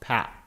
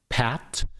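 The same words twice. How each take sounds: First: The final t is close to a glottal stop. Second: The final t is a clear, released t.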